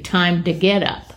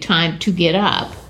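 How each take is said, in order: First: The words are run together in a slur. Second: The words are said clearly and separately. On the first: "if you kind of slurred it together" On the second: "common phrase would be"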